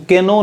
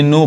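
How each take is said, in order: First: केनो with the K sounded; wrong pronunciation. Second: नो with silent K; correct pronunciation. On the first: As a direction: say केनो, voicing a K before the N. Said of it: "इसको केनो नहीं पढ़ेंगे". (केनो, शुरू का के बोलकर) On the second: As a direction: say नो, starting straight on the N. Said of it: "यानी नो पढ़ेंगे". (नो, के को खामोश रखकर) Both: Shown as a demonstration.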